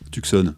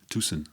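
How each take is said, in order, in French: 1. Il se dit avec une prononciation française. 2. Il se dit avec une prononciation anglo-américaine. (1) "Je je dis à la française encore, c'est la honte" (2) "on doit dire"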